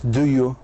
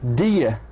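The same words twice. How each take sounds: First: The two words are said fully and separately. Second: The two words are reduced and run together. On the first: The speaker calls it wrong. "مش do you" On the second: The speaker calls it right. "In the American accent, we say do you"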